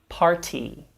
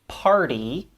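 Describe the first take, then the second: First: The middle consonant is a crisp, hard T. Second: The middle consonant is a quick soft flap. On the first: The speaker calls it wrong. "rather than" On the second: The speaker calls it right. "pronounced with a flap d"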